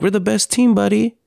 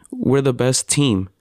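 First: Much higher, gentle comforting voice; father comforting his upset son, tender; retold tender reassurance. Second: Said in the usual way. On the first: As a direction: reassure a small child sweetly. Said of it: "I'm like". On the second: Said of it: "I started the".

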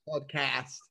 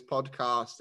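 First: "Podcast" with a short flat a as in cat, pod-cast; American podcast. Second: "podcast" with a long British ah, pod-cahst. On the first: Shown as a demonstration. Guest copies the host's American "Podcast", flat a. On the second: Real, not acted. Host hears the guest's British "podcast", broad ah. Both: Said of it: "Not cost".

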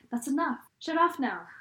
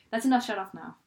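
First: Rattled off in one breath, louder; fast, no breaks. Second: Rushed, no pause between the sentences; fast, no breaks. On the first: Friend imitating Jason rushing his line, all run together. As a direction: run the words together with no gaps. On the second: Friend repeating Jason's line, crammed together fast. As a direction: say it all as one word. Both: Retold or imitated. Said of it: "he said it so fast, like, with no breaks".

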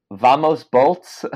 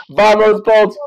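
First: Slow drawn-out chant; quoting her cheer. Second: High loud rallying cry; excited cheer. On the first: Retold or imitated. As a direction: stretch the words slowly. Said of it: "And she said". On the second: Acted. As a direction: yell it like a fan in the stands. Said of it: "I'm an idiot".

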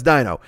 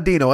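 First: "Dino" with an eye sound, DYE-no, said lower; Dino said Dyeno. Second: "Dino" with a long ee sound, DEE-no; Dino said Deeno. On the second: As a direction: say "Dino" as DEE-no, not DYE-no. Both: Retold or imitated. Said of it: "They just pronounce it like".

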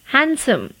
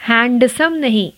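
First: हैंडसम as hansom, d silent; correct handsome. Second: हैंडसम with the d sounded; mispronounced handsome. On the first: Teacher gives हैंडसम without the d. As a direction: say हैंडसम dropping the d. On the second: Teacher shows हैंडसम with the d. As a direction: say हैंडसम with a clear d. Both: Shown as a demonstration.

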